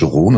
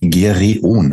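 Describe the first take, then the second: First: The name is said in its usual pronunciation. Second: The name is read out letter by letter. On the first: This is how the name is actually pronounced. "wie er ausgesprochen wird" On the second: This is how the name is written. "Gereon geschrieben"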